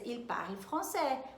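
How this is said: The voice falls at the end, like a statement. It states a fact. "uma frase que eu poderia usar na afirmativa"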